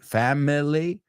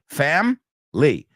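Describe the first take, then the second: First: The word is stretched out to three syllables. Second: The word is said with only two syllables. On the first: "you don't have to extend it" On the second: "which is really two syllables"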